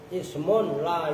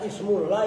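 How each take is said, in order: First: The first word ends with a clear n sound. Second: The first word runs into la with an l. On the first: A noun that does not take tanwin. The speaker calls it right. "Bukan cara bacanya kudu benar" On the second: The noun of the word la. The speaker calls it wrong. "Kalau baca ismul la itu isimnya la, nah, kan salah lagi aja"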